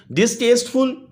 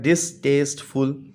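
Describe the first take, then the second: First: Said in the usual way. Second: डिसटेस्टफुल slowly broken as डिस, test, फुल; split into syllables. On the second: Shown as a demonstration. (डिसटेस्टफुल को तीन हिस्सों में: डिस... test... फुल) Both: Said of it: "three syllable word है".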